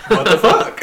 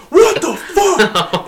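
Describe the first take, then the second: First: Quicker questioning echo, ending on a rise; retold incredulous echo. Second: High, drawn-out mock outrage; retold outraged outburst. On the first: Worker answering the furious boss, amused incredulous echo. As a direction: throw it back higher, half laughing. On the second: Boss bursting out at a worker, outraged high cry. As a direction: imitate a furious boss, stretching each word high.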